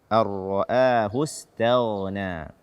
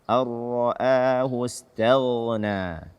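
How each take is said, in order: The two takes are said the same way.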